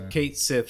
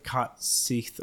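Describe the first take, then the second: First: The name is said the familiar, everyday way. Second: The name is said the Scottish way. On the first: This is the usual and official name. "Kate Sith is what we've always called it" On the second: This follows the name's Scottish origin. "if it's Scottish, this is how you'd actually pronounce that name"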